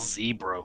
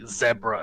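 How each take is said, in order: First: The first syllable does not sound like 'deb'. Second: The first syllable sounds like 'deb' in Deborah. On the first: The speaker calls it wrong. "not zebra" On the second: The speaker calls it right. "definitely zebra as in Deborah"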